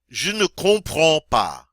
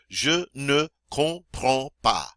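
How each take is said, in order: First: It is said at normal speed. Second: It is said slowly.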